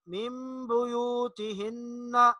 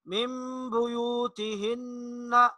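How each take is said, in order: The two takes are said the same way.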